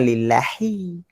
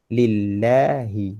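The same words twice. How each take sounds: First: "lillahi" pitched up with overlong ending; wrong recitation. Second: "Lillahi" slow and level, middle vowel held; evenly measured "Lillahi"; correct recitation. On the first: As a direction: mistaken "lillahi", last vowel dragged high. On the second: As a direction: model "Lillahi" with long "la", short "hi". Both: Shown as a demonstration. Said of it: "Bukan lillahi".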